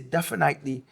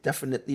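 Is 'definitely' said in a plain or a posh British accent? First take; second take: posh British; plain. First: It is said in a posh British accent. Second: It is said in the speaker's ordinary accent. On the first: "dad used to say definitely" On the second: "instead of saying definitely"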